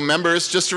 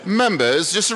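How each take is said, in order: First: It is said in a plain American accent. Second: It is said in a put-on British accent.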